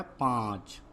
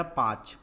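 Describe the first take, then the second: First: पाँच drawn out, long aa through the nose; पाँच said as "paanch", vowel nasalized. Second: पाँच with a purely oral long aa, no nasal; पाँच said as "paach"; missing nasal. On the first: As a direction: put the chandrabindu nasal into पाँच. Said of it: "क्या होता है". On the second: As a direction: drop the chandrabindu nasal from पाँच. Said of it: "पाँच नहीं होता है". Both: Shown as a demonstration.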